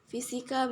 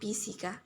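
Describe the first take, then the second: First: The word begins with an f sound. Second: The word begins with a p sound. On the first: "fonem F ... diucapkan ... menjadi P" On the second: "fonem F ... diucapkan ... menjadi P"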